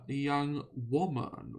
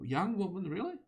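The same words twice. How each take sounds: First: Said in the usual way. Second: Higher, quicker echo in disbelief; incredulous. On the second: Real, not acted. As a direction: question the words you just read, pitch jumping up. Questions what was just read.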